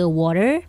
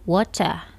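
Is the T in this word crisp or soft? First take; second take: soft; crisp. First: The T sound is soft, in an American accent. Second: The T sound is crisp, in a British accent. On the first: "American accent lebih ke water, T-nya itu lembut" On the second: "British accent sama Australian accent ... T-nya ditekan"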